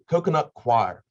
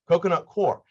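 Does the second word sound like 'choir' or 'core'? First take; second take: choir; core. First: The second word sounds like 'choir'. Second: The second word sounds like 'core'. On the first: The speaker calls it right. "That's how you pronounce it" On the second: The speaker calls it wrong. "I called it core"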